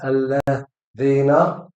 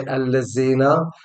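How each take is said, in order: First: The middle consonant is a voiced 'th'. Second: The middle consonant is a 'z'. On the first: The speaker calls it right. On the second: The speaker calls it wrong.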